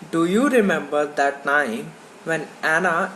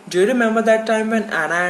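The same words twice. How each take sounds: First: The words are said separately, without linking. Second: The words run together, linked smoothly. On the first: "these sentences spoken by the English listener" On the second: "the native speakers speak like this"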